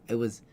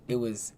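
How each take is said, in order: The two takes are said the same way.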